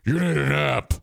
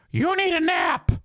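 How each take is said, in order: First: Corrected friend voice. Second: Much higher, squeaky imitation of a woman friend; high mock woman voice. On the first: Retold or imitated. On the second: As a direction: parody the friend with a shrill-high take. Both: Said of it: "She doesn't sound like Maureen".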